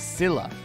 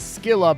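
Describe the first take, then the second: First: The word begins with a soft S sound. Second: The word begins with a hard K sound. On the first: This is the British pronunciation. "British pronunciation is Scylla" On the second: This is the American pronunciation. "U S pronunciation is Skilla"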